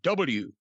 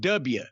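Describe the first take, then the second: First: The letter is said in a standard accent. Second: The letter is said in a Southern accent. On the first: The speaker calls it right. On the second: The speaker calls it wrong.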